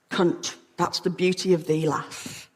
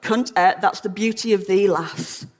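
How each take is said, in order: First: Softer, lower, trailing to a whisper; hushed tenderness. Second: Said in the usual way. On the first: Acted. Mellors tells his lover what it means, hushed and tender. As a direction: let the last word fade into breath. Repeats Mellors' line more softly.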